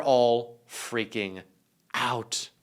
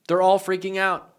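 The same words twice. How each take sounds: First: Slow, stretched out with a pause before out; drawn-out. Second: Said in the usual way. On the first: Acted. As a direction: lean on freaking and hang before out. Stretched first take of phrase.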